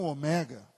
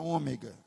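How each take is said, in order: First: The stress falls on a later syllable. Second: The stress falls on the first syllable. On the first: The speaker calls it right. "e não ômega, que é o certo" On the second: The speaker calls it wrong. "Eu vou falar ômega"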